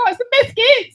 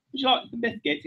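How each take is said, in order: First: Squished-face, very high Australian accent. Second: Softer, higher British accent. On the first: Comic turning British into Australian, squished-face accent. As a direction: scrunch the nose and squeak it in Australian. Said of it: "you just squish your face out". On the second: Comic showing the first take, British accent. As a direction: ask politely in put-on British. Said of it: "just the British accent". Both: Shown as a demonstration.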